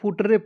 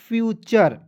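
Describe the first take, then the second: First: It is said 'footre', ending in a 'tre' sound. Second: It is said 'fyoocher', ending in a 'cher' sound. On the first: The speaker calls it wrong. "बहुत दिख से फुटरे पढ़ लेता है, नहीं पढ़ना है" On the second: The speaker calls it right. "T U R E को चर पढ़ते हैं"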